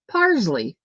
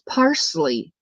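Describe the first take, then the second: First: The middle consonant is a z sound. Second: The middle consonant is an s sound. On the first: The speaker calls it wrong. "I s pronounce it P A R Z L E Y" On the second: The speaker calls it right. "There's no Z in parsley, it's parsley"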